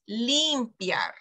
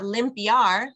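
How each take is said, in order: First: The first vowel is an 'ee' sound. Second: The first vowel is a short 'ih' sound. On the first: The speaker calls it right. "It's limpiar. A, E, I" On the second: The speaker calls it wrong. "It's not limpiar"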